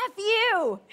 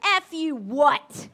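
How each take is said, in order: First: Loud, higher mock outburst at the coach; retold player snapping at his coach; angry curse. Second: Very slow, loud, drawn-out challenge; daring comeback. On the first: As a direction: hurl it at her like a sore loser. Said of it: "he turns to her and he goes". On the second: Retold or imitated. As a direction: stare him down and dare him to repeat it. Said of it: "she gives him eyes and she goes".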